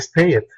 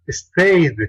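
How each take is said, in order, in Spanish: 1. La terminación agrega una sílaba extra. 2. La terminación es un simple sonido d. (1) "como esto" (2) "la pronunciación final del ed sería stayed"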